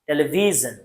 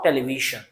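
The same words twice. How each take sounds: First: The middle consonant is a buzzing zh sound. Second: The middle consonant is a hissing sh sound. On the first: The speaker calls it right. "as in the word decision, television" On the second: The speaker calls it wrong. "not television"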